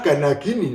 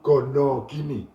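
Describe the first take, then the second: First: The first word has 'a' vowels. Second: The first word has 'o' vowels. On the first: It is the standard dictionary form. "Istilah gana gini" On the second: It is the popular Javanese-influenced form. "lebih populer disebut gono gini ... vokal O untuk mengganti vokal A"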